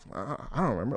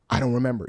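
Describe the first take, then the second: First: It sounds casual and offhand, with a hesitation. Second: It sounds serious and pointed, not offhand.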